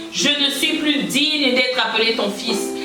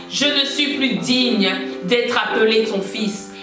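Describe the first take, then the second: No difference in how they are said.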